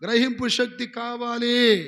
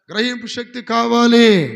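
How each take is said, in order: First: Congregation shout. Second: Full-voice shout of గ్రహింపు శక్తి కావాలి, slow; slow, booming call of గ్రహింపు శక్తి కావాలి; loud shout. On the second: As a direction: belt out కావాలి as a rallying cry. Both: Shown as a demonstration. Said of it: "గట్టిగా చెప్పండి".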